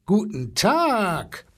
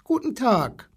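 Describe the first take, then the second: First: Slow, drawn-out elephant greeting; blustering elephant. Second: High, lightly voiced child; a small boy's high-pitched hello; little boy greeting. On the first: Elephant greets the boy back, slow bluster. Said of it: "polterte der Elefant". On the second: Small boy greets zoo animals, high child voice. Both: A narrator's reading.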